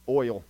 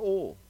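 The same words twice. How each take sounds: First: Oil is said in a careful standard way. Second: Oil is said in a casual regional way. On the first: The speaker calls it right. "Let me say that properly for you all" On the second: The speaker calls it wrong. "People get on to me the way I say oil"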